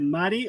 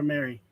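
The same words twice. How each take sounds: First: "Mari" with a tapped Spanish r and open a; Spanish pronunciation. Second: "Mary" with an English r, MAIR-ee; English pronunciation. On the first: Streamer asking a viewer her name, "Mari" in Spanish pronunciation. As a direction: say "Mari" the Spanish way, MAH-ree. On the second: Streamer asking a viewer her name, "Mary" in English pronunciation. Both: Shown as a demonstration. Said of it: "they both spell the same".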